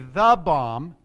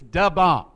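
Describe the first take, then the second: First: The first word is a full 'the'. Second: The first word is a reduced 'duh'. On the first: The speaker calls it wrong. "you can't just say the bomb" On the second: The speaker calls it right. "It's da bomb, right? And that's how you say it"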